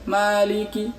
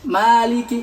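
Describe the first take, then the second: First: The lips stay nearly closed on the vowel. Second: The lips open wide on the vowel. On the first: The speaker calls it wrong. "kalau kita tidak buka berarti maliki" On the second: The speaker calls it right. "harus kita buka"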